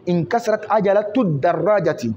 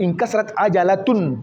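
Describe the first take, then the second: First: عجلة as 'ajalatu, linked into الدراجة; short u on عجلة, no tanwin; tanwin dropped. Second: عجلة ending in a clear tun; tanwin sounded. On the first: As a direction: say 'ajalatu-d-darraja without n. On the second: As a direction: say 'ajalatun with final n. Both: Shown as a demonstration. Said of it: "في المفرد تحذف التنوين".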